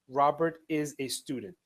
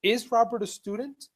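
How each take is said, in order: First: Falling statement, Robert stressed; a statement with a falling tune on "student". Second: Higher, louder yes-no question rising on "student?"; teacher demo of "Is Robert a student?" rising; question tune. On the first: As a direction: say it flat as a plain statement, falling at the end. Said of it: "If you take the verb to be and you move it". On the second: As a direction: lift the pitch and rise at the end like a real question. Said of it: "it becomes a question". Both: Shown as a demonstration.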